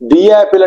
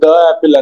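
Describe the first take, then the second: First: The word 'the' is said as 'thee'. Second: The word 'the' is said as 'thuh'. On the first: The speaker calls it right. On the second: The speaker calls it wrong.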